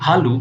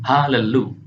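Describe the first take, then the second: First: No vowel is heard between the l sounds. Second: A short vowel separates the two l sounds. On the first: The speaker calls it wrong. "kita tidak boleh membacanya sebagai halu" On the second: The speaker calls it right. "melainkan halelu"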